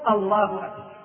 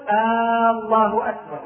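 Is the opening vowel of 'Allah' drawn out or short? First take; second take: short; drawn out. First: The opening vowel of 'Allah' is kept short. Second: The opening vowel of 'Allah' is drawn out long. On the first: It is a plain statement. The speaker calls it right. "والصواب أن يقول الله أكبر" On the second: It sounds like a question. The speaker calls it wrong. "الخطأ أن يقول الله أكبر"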